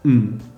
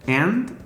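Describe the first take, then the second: First: The word is reduced to a lone 'n' sound. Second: The word is said in full with the final d.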